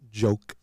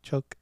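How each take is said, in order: First: The word starts with a voiced j sound. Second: The word starts with a voiceless ch sound. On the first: The speaker calls it right. "you gotta say it with a J" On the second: The speaker calls it wrong. "it's not choke"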